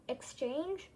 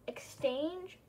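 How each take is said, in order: Both takes have the same delivery.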